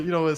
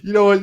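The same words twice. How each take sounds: First: Said in the usual way. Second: High and loud, laughing; exasperated you know what, pitched up; exasperated outburst. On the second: Real, not acted. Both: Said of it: "but I'm still laughing".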